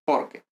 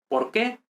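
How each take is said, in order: First: "Porque" with a short, unaccented "que"; stress on por. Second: "¿Por qué?" rising onto a stressed "qué". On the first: Teacher contrasting the two spellings, "Porque" with weak ending. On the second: Teacher contrasting the two spellings, rising stress on "qué". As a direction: push the accent to the final "qué". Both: Shown as a demonstration. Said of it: "notice the difference in pronunciation".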